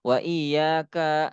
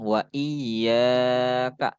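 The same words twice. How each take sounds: First: The final syllable is long. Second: The final syllable is short. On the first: The speaker calls it wrong. "Jangan sampai itu kak dibaca panjang" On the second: The speaker calls it right. "ini kak-nya dibaca pendek nih"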